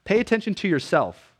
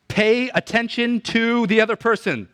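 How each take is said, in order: First: "pay attention to yourself" with weight on "pay" and "yourself"; corrected version. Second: "Pay attention to the other person" said high, stress on "the other person"; wrong version. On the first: Preacher correcting Jesus' words, stressing "yourself". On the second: Preacher voicing the mistaken reading, stress on "the other person". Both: Shown as a demonstration. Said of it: "No, pay attention to yourself".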